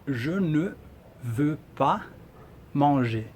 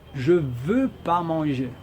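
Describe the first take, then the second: First: The negation word ne is pronounced. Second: The negation word ne is left out. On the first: This is the full written form. "se eu falo assim" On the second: This is everyday native speech. "a gente fala"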